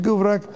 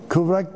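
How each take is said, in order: First: The word begins with a g sound. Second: The word begins with a k sound. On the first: This is the local dialect form. "G harfiyle gıvrak" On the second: This is the standard form. "Kıvrak değil"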